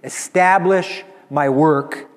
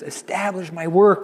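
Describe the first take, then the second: First: It is said in a confident, triumphant voice. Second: It is said in a tearful, crying voice. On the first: "with the complete confidence of victory" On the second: "And he says it with tears"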